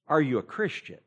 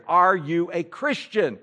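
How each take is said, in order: First: Said in the usual way. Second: "Are you a Christian?" said slowly and louder, stressing "are"; slow emphatic question. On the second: Shown as a demonstration. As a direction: press the question slowly and firmly.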